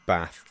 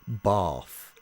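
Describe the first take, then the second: First: Bath is said in the speaker's usual accent. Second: Bath is said in the local Somerset accent.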